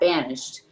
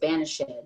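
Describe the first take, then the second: First: The word is said with two syllables. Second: The word is said with three syllables.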